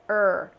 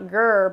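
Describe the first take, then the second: First: The sound begins with no g before the r. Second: The sound begins with a g before the r. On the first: The speaker calls it right. "without the initial G sound" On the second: The speaker calls it wrong. "not grr"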